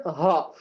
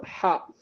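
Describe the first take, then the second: First: ஹா as a soft h from the bottom of the throat; from deep throat. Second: ஹா as a breathy h squeezed in mid-throat. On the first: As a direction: let ஹா come from deep in the throat. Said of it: "அடித்தொண்டையில இருந்து வரணும்". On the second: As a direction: push air through the middle of the throat for ஹா. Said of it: "அந்த நடுத்தொண்டையில இருந்து வரணும்". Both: Shown as a demonstration.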